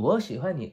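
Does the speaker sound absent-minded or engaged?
absent-minded. It is said absent-mindedly, without attention. The speaker's mind is elsewhere.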